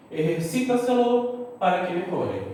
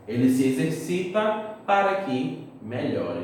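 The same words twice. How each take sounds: First: "Ejercita-se-lo" in Spanish, throaty j, beat on "ci"; Spanish pronunciation. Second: Said in the usual way. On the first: Shown as a demonstration. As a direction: model "Ejercita-se-lo" as one word, "eh-her-SI-ta-se-lo". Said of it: "Olha o exemplo". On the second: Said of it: "em português".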